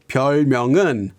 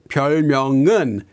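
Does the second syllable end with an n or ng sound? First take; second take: ng; ng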